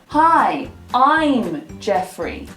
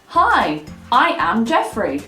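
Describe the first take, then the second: First: 'I am' is contracted into one syllable. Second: 'I am' is said as two full words. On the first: The speaker calls it right. "it is much, much more common to say" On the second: The speaker calls it wrong.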